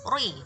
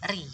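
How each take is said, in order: First: The r is thick, with rounded lips. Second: The r is thin, with spread lips. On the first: The speaker calls it wrong. "bukan. Kalau ri itu adalah dibaca dengan tebal" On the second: The speaker calls it right. "seharusnya dibaca tipis, yaitu ri"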